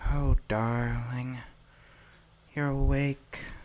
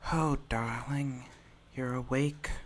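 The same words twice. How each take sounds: First: The line is spoken at a slower pace. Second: The line is spoken at a quicker pace. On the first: The speaker calls it right. "I'll try saying it slowly" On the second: The speaker calls it wrong. "slow down your speech"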